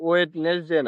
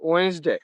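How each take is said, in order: First: The middle d is pronounced. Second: The middle d is silent. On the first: The speaker calls it wrong. "না" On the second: The speaker calls it right. "ডিটা silent কিন্তু"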